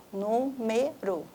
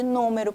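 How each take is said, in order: First: NÚMERO slowly split as nú-me-ro; syllable by syllable. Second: Said in the usual way. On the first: Shown as a demonstration. Teacher showing the stressed syllable of número, syllable by syllable. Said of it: "olha só". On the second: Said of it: "olha só, número".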